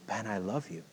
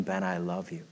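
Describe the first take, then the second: First: Soft, hushed gentle voice; voice of Jesus, softly. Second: Soft, low hushed tender voice; voice of Jesus, softly. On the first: Preacher recalling Jesus speaking to him, very soft. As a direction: let it land quietly and tenderly. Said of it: "this clear voice of Jesus". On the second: Preacher repeating Jesus's words to congregation, low and soft. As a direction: say it low and barely there. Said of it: "Jesus saying". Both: Retold or imitated.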